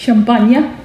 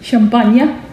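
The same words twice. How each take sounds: First: It is said with a French pronunciation. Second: The same.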